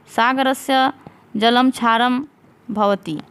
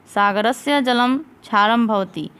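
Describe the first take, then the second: First: Each word set apart with pauses, dictation pace. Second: Said in the usual way. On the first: Shown as a demonstration. Teacher dictating the sentence to students, word by word. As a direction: spell out सागरस्य, जलम, क्षारम, भवति one at a time.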